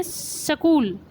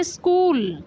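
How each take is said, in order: First: "सकूल" with a short vowel between s and k; Haryanvi pronunciation. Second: "स्कूल" with s and k run together; no vowel between s and k in "स्कूल"; Rajasthani pronunciation. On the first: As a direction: say "सकूल" in two syllables, sa-kool. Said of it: "Haryana में बोलते हैं". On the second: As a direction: say "स्कूल" as one syllable, skool. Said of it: "Rajasthan में बोलते हैं". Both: Shown as a demonstration.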